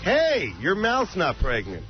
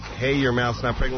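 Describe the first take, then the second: First: It falls at the end like a statement. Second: It rises at the end like a question.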